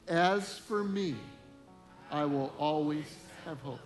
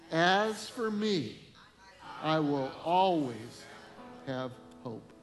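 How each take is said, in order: First: It is read plainly, without special conviction. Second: It is said forcefully, with strong conviction.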